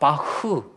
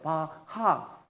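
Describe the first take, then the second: First: It ends in a throaty, breathy kh sound. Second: It ends in a full extra ha syllable. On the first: This is how Germans say it. The speaker calls it right. "다 바흐 그렇게 읽습니다" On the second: This is how Japanese speakers say it. The speaker calls it wrong. "일본 사람들 읽어보려니까 바하 이렇게 읽는 거예요"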